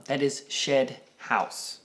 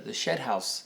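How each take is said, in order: First: Shed House slow, each sound clearly spelled out; carefully enunciated Shed House. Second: Shed House said the way a Texan says it; Texas accent. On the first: Shown as a demonstration. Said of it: "needs to be enunciated". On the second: Real, not acted. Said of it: "When you have an accent from Texas".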